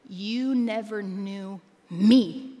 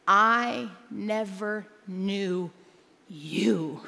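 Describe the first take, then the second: First: "You never knew me" said slowly as the wrong reading; slow wrong version. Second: "I never knew you" drawn out word by word, weight on "I"; slow stress on "I never knew you". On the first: Pastor showing what Jesus did not say, slow. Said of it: "He did not say". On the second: Pastor correcting the verse's wording, slow and deliberate. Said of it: "What did he say?". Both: Shown as a demonstration.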